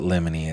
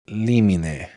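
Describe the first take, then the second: First: It is said with an anglicized legal pronunciation. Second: It is said with a Latin pronunciation. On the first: This is how lawyers say it. The speaker calls it wrong. "They pronounce it limine" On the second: This is how the Latin word should sound. The speaker calls it right. "it's limine"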